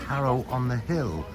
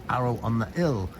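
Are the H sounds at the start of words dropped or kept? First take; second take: kept; dropped. First: The H sounds are pronounced at the word starts. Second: The H sounds are dropped at the word starts.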